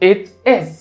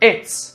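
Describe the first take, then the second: First: Two separate words, it and is. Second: Merged into one short syllable, it's.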